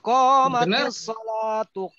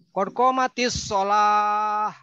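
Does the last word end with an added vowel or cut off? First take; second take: added vowel; cut off. First: The last word ends with an added linking vowel. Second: The last word is cut off without a vowel. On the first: The speaker calls it right. "Coba sambung" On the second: The speaker calls it wrong. "Salah itu azan atau komat"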